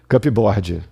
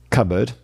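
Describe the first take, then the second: First: The p sound is pronounced. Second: The p sound is silent. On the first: The speaker calls it wrong. "O que, que você não vai fazer?" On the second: The speaker calls it right. "Cupboard, instead of cupboard"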